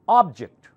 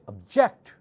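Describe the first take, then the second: First: The stress is on the first syllable. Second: The stress is on the second syllable. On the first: It names a thing. "Ob louder" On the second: It means to protest or disagree. "object part louder, it's a completely different word. It's a verb"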